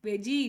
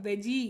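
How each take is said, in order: Both takes have the same delivery.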